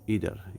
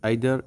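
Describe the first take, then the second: First: It is said with an American accent. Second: It is said with a British accent. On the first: "ইদার হচ্ছে American উচ্চারণ" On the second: "আইদার হচ্ছে British উচ্চারণ"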